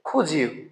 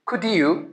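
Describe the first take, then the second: First: The d and y merge into a j sound. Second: A separate d and y sound are heard.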